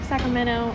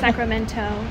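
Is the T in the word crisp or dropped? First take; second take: dropped; crisp. First: The T after the N is dropped. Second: The T after the N is pronounced crisply. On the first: This is the usual American way. "in America we would say like" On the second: This is the way with a strengthened T. "instead of"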